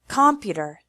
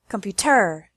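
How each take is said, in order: First: The stress is on the first syllable. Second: The stress is on the third syllable. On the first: "If we put the stress on the first or third syllable" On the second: "If we put the stress on the first or third syllable"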